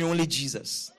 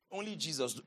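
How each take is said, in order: First: Said in the usual way. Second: Low and soft; hushed answer. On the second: Real, not acted. Preacher answering his own question to the congregation, low and hushed. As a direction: drop right down in pitch and volume.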